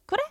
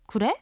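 First: The pitch falls at the end. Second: The pitch rises at the end. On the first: It agrees to the request. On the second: It asks whether that is true.

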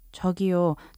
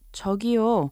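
First: It is said quietly and apologetically. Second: It is said politely to request attention.

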